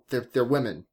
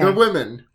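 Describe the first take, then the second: First: It is said in the speaker's usual accent. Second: It is said in a put-on British accent.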